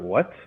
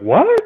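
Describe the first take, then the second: First: The voice is calm, not raised. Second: The voice is raised and loud.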